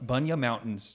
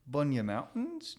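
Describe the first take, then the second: First: It is said in the speaker's usual accent. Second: It is said in a put-on Australian accent.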